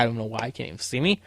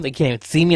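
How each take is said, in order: First: Quick mutter under breath. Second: Said in the usual way. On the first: Shown as a demonstration. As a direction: mumble it fast and much softer, half to yourself. Muttered repeat of same line.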